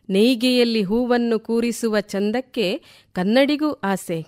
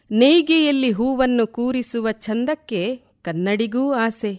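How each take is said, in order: Both takes have the same delivery.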